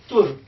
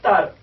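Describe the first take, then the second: First: The vowel sounds like a short 'u'. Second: The vowel sounds like a short 'a'. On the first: The speaker calls it wrong. "You cannot read it tur" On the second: The speaker calls it right. "This is tar"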